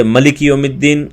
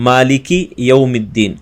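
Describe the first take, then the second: First: ملک said short as malik; wrong vowel. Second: مالک with a long first a; correct vowel. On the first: Teacher imitates the wrong short vowel in ملک. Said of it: "غلط انداز سے". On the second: Teacher shows the correct long vowel in مالک. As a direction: lengthen the a in مالک. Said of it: "اسی طریقے سے پڑھنا ہے". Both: Shown as a demonstration.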